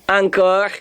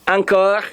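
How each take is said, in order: Both takes have the same delivery.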